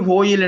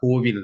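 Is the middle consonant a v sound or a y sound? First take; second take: y sound; v sound. First: The middle consonant is a y sound. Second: The middle consonant is a v sound. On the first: This is the form people commonly use. "கோயில் என்று தானே சொல்றோம்" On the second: This is the form the classical grammar rule supports. "கோவில் தான் சரி"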